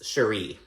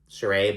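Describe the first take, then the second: First: The name is pronounced plainly, not French-style. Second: The name is pronounced in a French style. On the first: This is how this person's own name goes. The speaker calls it right. "but it's Sheree. Um, it doesn't have the little, little French accent thing" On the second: This is the pronunciation of another person's name. The speaker calls it wrong. "I got used to Sheree"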